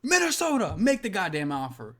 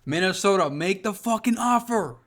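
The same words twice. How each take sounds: First: Much higher, pleading call to Minnesota; desperate fan begging his team, pitched way up. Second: Loud call-out to Minnesota. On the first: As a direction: push the plea up high, begging. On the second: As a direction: shout the plea at the team. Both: Real, not acted. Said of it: "bro, I'ma say it".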